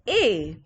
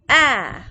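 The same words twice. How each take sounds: First: The vowel is said as its letter name. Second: The vowel is said as a short sound. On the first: "What's the vowel alphabet over here? It's A" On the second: "what's the sound you're hearing?"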